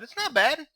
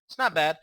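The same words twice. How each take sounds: First: High, questioning not bad; high rising. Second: Said in the usual way. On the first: Real, not acted. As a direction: lift it up, half unsure. Says it twice, first rising high.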